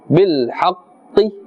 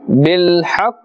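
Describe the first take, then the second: First: The word ends with a short final vowel. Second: The word ends on the consonant with no vowel. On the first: The speaker calls it wrong. "We're not pronouncing that kasra. We're not saying bil haqqi" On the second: The speaker calls it right. "We are stopping at the sound of the Qaf without pronouncing its harakah"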